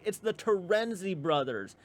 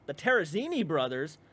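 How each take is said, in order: First: "Terenzi" slowly, three syllables, te-REN-zee; higher, deliberate correction, stressing REN in "Terenzi"; correcting to TERENZI. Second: "Terrazzini" with an extra syllable, ending zee-nee, as a question. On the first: Setting a friend straight on the name, "Terenzi" said slowly. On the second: Repeating a friend's slip back to them, questioning "Terrazzini". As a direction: query the name "Terrazzini", stressing the ZEE. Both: Retold or imitated. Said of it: "And I'm like".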